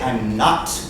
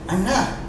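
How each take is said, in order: First: The final T is clearly pronounced. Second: The final T is dropped. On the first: "He doesn't say, I'm not. That would be perfect English" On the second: "He's not even pronouncing the T"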